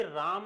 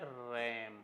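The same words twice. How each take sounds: First: राम with a long aa; mispronunciation shown. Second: रैम with a short a as in cat; correct pronunciation. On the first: Teacher rejects this reading for students, long-aa राम. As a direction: say राम with the open vowel of calm. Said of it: "इसका pronunciation है रैम". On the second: Teacher gives students the pronunciation, front-vowel रैम. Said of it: "इसका pronunciation है". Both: Shown as a demonstration.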